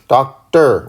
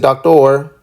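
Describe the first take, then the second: First: The last syllable sounds like 'er'. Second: The last syllable sounds like 'or'. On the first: The speaker calls it right. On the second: The speaker calls it wrong.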